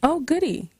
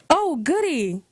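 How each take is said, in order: First: It is said flatly, without enthusiasm. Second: It is said brightly, with enthusiasm. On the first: The speaker calls it wrong. "That old goody didn't sound very enthusiastic" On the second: The speaker calls it right. "Is that better?"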